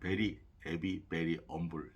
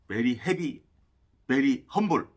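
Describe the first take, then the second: First: The h sounds in both words are dropped. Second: The h sounds in both words are pronounced. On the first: "일부러 그 H를 빼가지고" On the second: "원래는 그렇게 발음해야 돼요"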